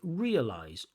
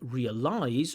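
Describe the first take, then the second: First: The final -ize syllable is unstressed. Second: The final -ize syllable is stressed. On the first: The speaker calls it right. "we say realize" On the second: The speaker calls it wrong. "instead of things like realize"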